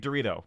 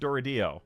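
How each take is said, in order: First: The name is said like the snack, Dorito. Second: The name is said with a d-sound ending, Doridio. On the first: This is the speaker's own chosen pronunciation. "So I'm just going to say Dorito" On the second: This is how the makers pronounce it. "they pronounced it like Doridio"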